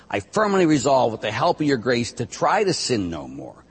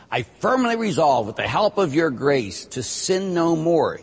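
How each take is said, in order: First: Said in the usual way. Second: Slow, higher and louder, firmly stressed; right version, emphatic. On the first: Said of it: "You do not say". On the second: Shown as a demonstration. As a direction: say every word of the promise deliberately, leaning on firmly. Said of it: "You say".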